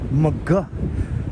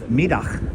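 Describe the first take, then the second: First: The name sounds like 'McGuh'. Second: The name sounds like 'Middag'. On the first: This is how local Brooklyn residents say it. The speaker calls it wrong. "us Brooklynites call it McGuh Streets" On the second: This is the original Dutch pronunciation. The speaker calls it right. "the correct pronunciation is Middag"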